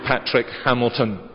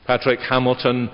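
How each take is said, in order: Both takes have the same delivery.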